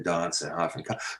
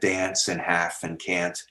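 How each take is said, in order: First: The vowels sound like southern English speech. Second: The vowels sound like North American English. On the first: This is the newer pronunciation. "That changed in England in the eighteenth century to" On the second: This is the older pronunciation. "Shakespeare said ... it stayed the same in North America"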